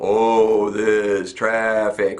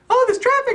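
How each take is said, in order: First: It is said very slowly. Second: It is said at a quicker pace.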